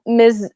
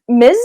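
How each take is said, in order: First: Said in the usual way. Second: "Miz" with a long, buzzed final z; buzzing Z's. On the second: Shown as a demonstration. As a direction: hold the z at the end of "Miz". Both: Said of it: "with the Z's".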